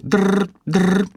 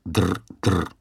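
First: High, loud trilled ringing; loud phone ring imitation. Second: Flat ring imitation. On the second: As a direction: copy the ring lazily. Steve copies the ring flatly.

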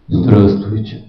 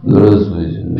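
First: Very low booming greeting; extremely deep bass voice. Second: General Lebed's low bass; extremely deep bass voice. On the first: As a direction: drop the voice deep into the chest. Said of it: "Они вот так говорят". (очень низкий басовитый голос) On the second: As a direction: greet like a heavy gruff general. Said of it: "такой был генерал Лебедь". (бас генерала Лебедя) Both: Retold or imitated.

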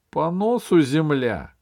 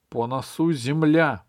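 First: "носу" stressed on its first syllable, НОсу, raised and louder; correcting the phrase. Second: "носу" leaning on its last syllable, носУ; corrected repeat. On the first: Captain corrects Fuks's wording, stressing НОсу in "носу". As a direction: say "носу" as НОсу, pitched up firmly. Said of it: "говорю я". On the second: Fuks corrects himself to the captain, saying "носу" as носУ. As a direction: say "носу" as носУ, weight on the end. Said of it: "поправил Фукс". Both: A narrator's reading.

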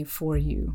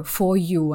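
First: FOR YOU with the R in FOR pronounced; sounded R. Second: FOR YOU with no R in FOR; silent R. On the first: Showing the habit she wants to avoid, sounded R. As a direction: say FOR YOU the American way, with an audible R. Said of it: "«р», которые не нужно произносить". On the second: Demonstrating a word she practises, silent R. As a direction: say FOR YOU the British way, R dropped. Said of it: "а не for you". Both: Shown as a demonstration.

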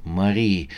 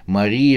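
First: Soft falling Мари, gently pleading. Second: Мари lifted and rising, urgent plea; pleading call. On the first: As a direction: say Мари quietly, letting it drop. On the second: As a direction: raise Мари as a begging question. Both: A narrator's reading. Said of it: "умолял её Свеклов".

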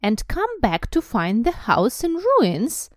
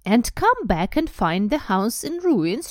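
First: Slow, raised, snarling question; indignant high snarl. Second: Slow, raised snarl; drawn-out indignant snarl. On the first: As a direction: snarl it, loud and drawn-out. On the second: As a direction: snarl it, high and loud. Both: A narrator's reading. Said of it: "she snarled".

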